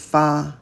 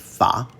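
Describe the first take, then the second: First: The pitch stays high and level. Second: The pitch rises from middle to high. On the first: "Another first tone fa" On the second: "second tone"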